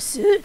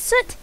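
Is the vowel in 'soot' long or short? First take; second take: long; short. First: The vowel is a long 'oo' sound. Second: The vowel is a short sound. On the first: The speaker calls it wrong. "Like, with a long O?" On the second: The speaker calls it right. "No, it's Soot"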